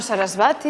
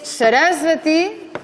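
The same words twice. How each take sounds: First: "Sarasvati" as sa-ras-VA-ti; mistaken penultimate stress. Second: "Sarasvati" as sa-RAS-va-ti, very slow and higher; stress third from end. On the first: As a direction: put the accent of "Sarasvati" wrongly on VA. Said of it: "y no Sarasvati". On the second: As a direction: stretch RAS in "Sarasvati", short "va". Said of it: "el acento en la tercera sílaba". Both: Shown as a demonstration.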